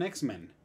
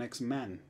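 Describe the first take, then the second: First: X-Men with a short e in men; common misuse. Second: X-Man with an open a in man; corrected singular. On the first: Retold or imitated. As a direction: quote the error X-Men, ending in men. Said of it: "que dicen, "Wolverine es un X-Men". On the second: Shown as a demonstration. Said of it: "la pronunciación de man".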